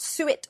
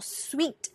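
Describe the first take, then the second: First: It sounds like two syllables, suet. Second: It sounds like one syllable, sweet. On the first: "not suet" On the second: "or sweet"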